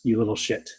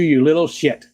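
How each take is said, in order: First: It is said imitating Skipper's voice. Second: It is said in his own normal voice.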